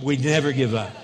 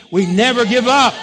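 First: Said in the usual way. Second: Loud, emphatic rallying cry; forceful preacher's shout; say it like you mean it. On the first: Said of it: "No, say it like you mean it". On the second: Shown as a demonstration. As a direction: belt it out with full conviction. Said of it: "say it like you mean it".

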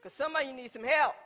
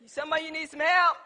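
First: Said in the usual way. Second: Louder emphatic repeat. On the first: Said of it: "first statement, then repeated". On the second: Real, not acted. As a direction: hit it harder the second time. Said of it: "repeated for emphasis".

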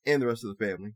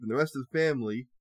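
First: Said in the usual way. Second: Said oddly; garbled reading. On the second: Real, not acted. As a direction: stumble over it strangely. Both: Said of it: "I don't know why I said that so weird".

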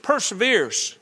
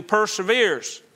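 First: "perseveres" set apart and pitched higher; stress on perseveres. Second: Said in the usual way. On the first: Shown as a demonstration. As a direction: lift the word "perseveres" so it stands out. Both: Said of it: "pay attention to that word".

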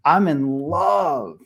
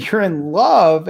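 First: Put-on drawn-out, slow boyish declaration; lovestruck declaration. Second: Louder, higher, drawn-out disbelief; incredulous echo. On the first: Son confessing to his dad in the hot tub, lovestruck. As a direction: stretch out the word love, smitten. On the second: Retold or imitated. Dad answering his young son's confession, incredulous. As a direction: draw out love in mock astonishment.

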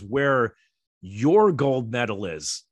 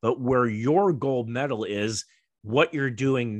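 First: "your gold medal" said slowly, each word weighed; stressed slowly. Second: "where your gold medal is" drawn out slowly, leaning on "your"; emphatic, slowed. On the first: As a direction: lean on "your" and stretch "Where your gold medal is". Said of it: "he goes No, no, no". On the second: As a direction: spell out the point slowly, word by word. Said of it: "He says". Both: Retold or imitated.

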